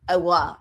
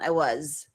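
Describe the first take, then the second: First: The final z sound is left off. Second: The final z sound is clearly heard. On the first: The speaker calls it wrong. "we don't say it like that" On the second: The speaker calls it right. "you'll hear the zzz sound"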